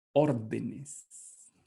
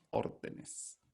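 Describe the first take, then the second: First: Said in the usual way. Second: Whispered. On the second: Shown as a demonstration. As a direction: whisper órdenes softly, no voice. (susurrando órdenes)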